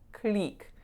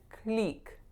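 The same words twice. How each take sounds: First: The vowel is a tense, pure 'ee'. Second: The vowel is a tense, pure 'ee'.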